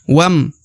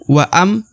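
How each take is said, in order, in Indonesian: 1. Huruf w langsung bertemu dengan m. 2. Vokal panjang ada sebelum m. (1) "Waw langsung masuk ke huruf huruf mim" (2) "bukan waam"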